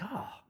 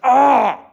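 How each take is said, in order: First: It sounds calm and relaxed. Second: It sounds tense and angry.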